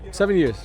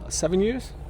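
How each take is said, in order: First: The voice falls at the end like a statement. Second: The voice rises at the end like a question.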